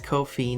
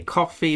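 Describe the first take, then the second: First: It ends in 'fee', rhyming with 'no fee'. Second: It sounds like the drink coffee. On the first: The site charges no fee. "so it's Ko-fi no fee" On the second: It is a pun on buying someone coffee. "some say coffee"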